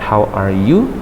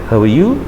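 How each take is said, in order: First: The words are said separately and slowly. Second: The words are run together quickly. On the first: The speaker calls it wrong. "Bukan how are you" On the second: The speaker calls it right. "cepat ... tapi how are you"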